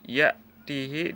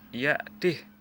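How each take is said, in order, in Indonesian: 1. h terakhir diikuti vokal. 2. h terakhir dibaca mati, tanpa vokal.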